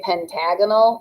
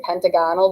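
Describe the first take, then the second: First: Pentagonal stressed on the second syllable, pen-TAG-uh-nul; usual stress shift. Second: Pentagonal said like pentagon plus -al, PEN-tuh-GON-al; unshifted stress. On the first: Teacher showing how the shape is usually named, pentagonal stressed pen-TAG-uh-nul. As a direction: punch TAG in pentagonal, short ending. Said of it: "something weird happens with the stress". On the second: Teacher showing the less usual form, pentagonal as PEN-tuh-GON-al. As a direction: keep a full GON in pentagonal. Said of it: "You don't say pentagonal". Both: Shown as a demonstration.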